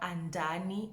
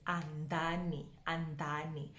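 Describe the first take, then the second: First: "Andani" with an ordinary English d; mispronounced Andani. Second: "Andani" with soft dental d, low and quiet; correct Venda Andani. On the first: Teacher showing what it's not, Andani with ordinary d. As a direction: voice the wrong "Andani", plain hard d. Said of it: "to show you that it's not Andani". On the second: Teacher showing the marked D, correct dental Andani. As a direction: gently model "Andani", tongue forward on the d. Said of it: "Almost like you have a kapi at the bottom of that D". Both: Shown as a demonstration.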